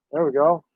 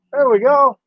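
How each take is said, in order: First: Said in the usual way. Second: Higher, louder "There we go" with a falling finish; happy little victory call; pleased exclamation. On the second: Real, not acted. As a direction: cheer it once the shot looks right. Pleased, repeated with a lift.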